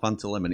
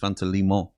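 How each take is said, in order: First: The fruit word has a plain English pronunciation. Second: The fruit word has a foreign, abroad-style pronunciation. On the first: The speaker calls it wrong. "It's not Fanta lemon" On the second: The speaker calls it right. "It's Fanta limon. That's how you say it"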